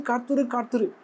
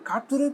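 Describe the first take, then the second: First: காத்திரு, காத்திரு said softly, each falling to rest; both காத்திரு soft with a falling close; soft falling wait. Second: காத்திரு said softly with a rising questioning lilt; a soft high காத்திரு ending on a rise; soft rising wait. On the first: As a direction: settle each காத்திரு down firmly but gently. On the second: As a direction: let காத்திரு float up gently. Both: Acted. Preacher voicing God's command.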